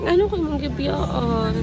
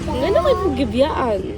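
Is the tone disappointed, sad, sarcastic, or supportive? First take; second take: disappointed; sarcastic. First: The line is said in a disappointed tone. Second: The line is said in a sarcastic tone. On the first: "Then disappointed"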